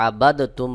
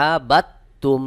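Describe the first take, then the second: First: আবাদ তুম with a separate, released দ before তুম; mistaken released dal. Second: আবাদ তুম said as "abat-tum", no d sound; dal merged into ta. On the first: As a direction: sound the d in আবাদ apart from তুম. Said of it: "এটা ভুল উচ্চারণ". (আবাদ তুম, দ আলাদা উচ্চারণ করে) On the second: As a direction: drop the দ of আবাদ, double the t into তুম. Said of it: "সহি উচ্চারণ হবে". (আবাদ তুম, দ বাদ দিয়ে ত যুক্ত করে) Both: Shown as a demonstration.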